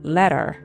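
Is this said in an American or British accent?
American. The final r is clearly pronounced.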